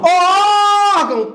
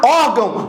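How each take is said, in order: First: High, loud call on órgão; long drawn-out shout. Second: Said in the usual way. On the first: Shown as a demonstration. Teacher hollering an example word to the class, stretched shout. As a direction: holler órgão, holding the first vowel.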